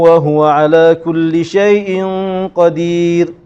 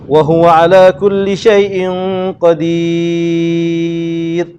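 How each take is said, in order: First: The vowel in the last word is held briefly. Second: The vowel in the last word is held very long. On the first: "Dua harakat" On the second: "Kalau baca enam, Enam"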